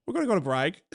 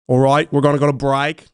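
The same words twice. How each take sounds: First: Softer, recovered Birmingham accent. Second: Loud, botched Birmingham accent sliding toward Australian. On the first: Co-host redeems his bad accent, quieter Birmingham accent. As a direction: land the Birmingham lilt more gently. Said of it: "That's Birmingham. I got it". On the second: Co-host sends show to break in accent, botched Birmingham accent. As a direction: have a bad go at Birmingham, loudly. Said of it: "like, a Birmingham accent". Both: Shown as a demonstration.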